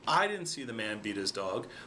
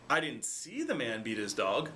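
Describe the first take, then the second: First: The stress is on "I". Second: The stress is on "see".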